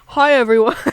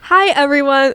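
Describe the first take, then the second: First: It is said in a put-on deep voice. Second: It is said in a normal speaking voice. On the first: "I like a deep voice" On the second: "Oh, wait, I'm supposed to try"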